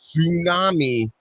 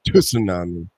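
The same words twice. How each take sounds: First: The word begins with no T sound. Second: The word begins with an audible T sound. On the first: The speaker calls it wrong. "It's not silent T" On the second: The speaker calls it right. "You you have to say the T"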